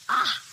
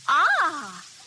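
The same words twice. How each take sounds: First: It sounds disgusted. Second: It sounds pleased.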